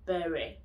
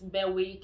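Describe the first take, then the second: First: The W sound is silent. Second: The W sound is pronounced. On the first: The speaker calls it right. "the W is silent in Berwick" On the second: The speaker calls it wrong. "you don't pronounce it Berwick"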